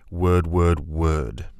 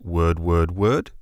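First: The pitch drops at the end like a command. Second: The pitch rises at the end like a question.

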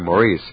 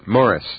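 First: The name is said like Maurice. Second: The name is said like Morris. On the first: "Americans say Maurice" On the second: "now you pronounced it correctly, too"

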